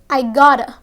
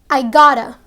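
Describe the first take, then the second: Both takes have the same delivery.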